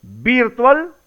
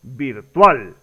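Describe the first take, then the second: First: "virtual" stressed on the first syllable, VÍRtual, rising; higher "virtual" with the accent moved to VIR. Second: "virtual" stressed on the last syllable, virTUAL, falling; deliberate "virtual" with a long final TUAL. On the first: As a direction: hit VIR in "virtual" as a questioning option. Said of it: "la pronunciación correcta". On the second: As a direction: land on TUAL in "virtual", dropping lower. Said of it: "o sería la pronunciación correcta". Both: Shown as a demonstration.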